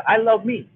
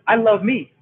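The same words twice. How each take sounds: The two takes are said the same way.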